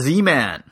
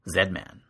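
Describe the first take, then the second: First: The name is said in a non-Canadian way. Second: The name is said the Canadian way.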